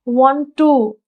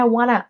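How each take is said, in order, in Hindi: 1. दोनों शब्द पूरे बोले जाते हैं। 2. दोनों शब्द मिलकर एक छोटा शब्द बन जाते हैं। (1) "नेटिव स्पीकर्स रेयरली बोलते हैं" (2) "वे कहते हैं"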